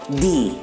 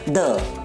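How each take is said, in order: First: It is said in the form used before vowels. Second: It is said in the form used before consonants. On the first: "If the word begins with a vowel sound, the will be pronounced as the" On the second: "If the word begins with a consonant sound, it will be pronounced as the"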